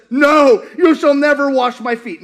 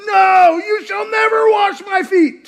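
First: Peter refusing. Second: Shouted high and loud, with NEVER punched; Peter's shouted refusal. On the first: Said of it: "And Peter says". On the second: Peter shouts at Jesus, refusing the foot washing. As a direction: bellow the refusal at the Lord. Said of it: "He goes". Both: Retold or imitated.

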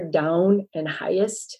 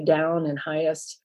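First: "down and highest" with raised first halves of the diphthongs; Canadian raising. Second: Said in the usual way. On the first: Shown as a demonstration. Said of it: "so the raised, you'll hear". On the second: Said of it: "where I would say".

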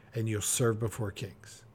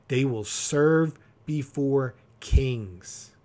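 First: Dropped low and soft, almost confiding; soft, lower promise. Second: Slow, every word of the proverb weighed; slow emphatic reading. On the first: Pastor promising listeners they'll serve kings, soft and low. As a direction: ease off and tell them gently. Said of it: "repeating the proverb as a promise". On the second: Pastor reading Proverbs to his congregation, slow and emphatic. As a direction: let each word land slowly. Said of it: "reading the proverb with weight". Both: Shown as a demonstration.

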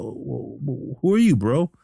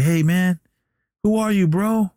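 First: Retold stammering question. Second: High-pitched questioning call; retold puzzled call. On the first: Billy before Jake leaves, imitated stammering puzzlement. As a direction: stumble into a bewildered question. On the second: Billy to departing Jake, imitated puzzled call. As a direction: imitate bewildered calling after a friend.

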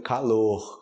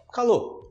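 First: "calor" ending in an audible H-like R; final R sounded. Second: "calor" as "ka-LOH"; silent final R. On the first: Teacher giving the word as written, "calor" with final R. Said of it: "até com R". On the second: Teacher giving the spoken form, "calor" without its R. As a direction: stop "calor" on the O, no R. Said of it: "na pronúncia você fala calor". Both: Shown as a demonstration.

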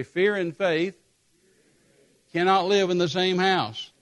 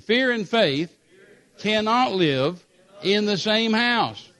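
First: Said in the usual way. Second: Louder, slower, with conviction; a firm congregational declaration; said like you mean it. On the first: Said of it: "Everybody say". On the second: Shown as a demonstration. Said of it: "say it like you mean it".

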